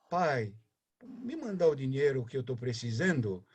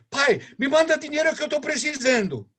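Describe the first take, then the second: First: It sounds warm and affectionate. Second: It sounds bossy and demanding.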